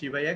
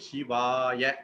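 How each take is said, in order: First: The middle vowel is said short. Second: The middle vowel is said long. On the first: The speaker calls it wrong. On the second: The speaker calls it right.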